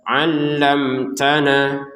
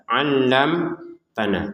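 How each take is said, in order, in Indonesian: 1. Kata itu mengalir lurus tanpa jeda. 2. Kata itu terputus oleh jeda singkat. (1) "Jadi langsung saja allamtana" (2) "Kalau jeda allamtana tidak boleh juga"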